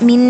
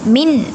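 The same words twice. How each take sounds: First: The final n is nasalized with a hum. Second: The final n is pronounced clearly. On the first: The speaker calls it wrong. "മിൻ എന്ന് മണിക്കാനും പാടില്ല" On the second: The speaker calls it right. "എന്ന് തന്നെ വ്യക്തമാക്കിയിട്ട് പാരായണം ചെയ്യാൻ ശ്രദ്ധിക്കുക"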